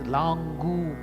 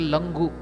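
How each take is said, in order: First: The final vowel is long. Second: The final vowel is short. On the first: The speaker calls it right. "Gu is also elongated" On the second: The speaker calls it wrong. "Should not tell Langu"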